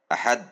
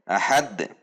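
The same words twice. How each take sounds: First: The final d stops flat with no bounce. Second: The final d is released with an echoing bounce. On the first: The speaker calls it wrong. "Tidak ada pantulan" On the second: The speaker calls it right. "Harusnya dibaca ahad"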